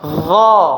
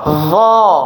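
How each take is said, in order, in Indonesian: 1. Diucapkan dengan mulut dibuka saja. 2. Diucapkan dengan mulut dibuka saja.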